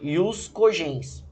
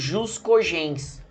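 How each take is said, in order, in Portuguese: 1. A primeira palavra começa com som de y. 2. A primeira palavra começa com som de zh.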